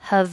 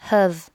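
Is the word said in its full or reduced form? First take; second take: reduced; full. First: The word is said in a weak, reduced form. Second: The word is said in its full, strong form.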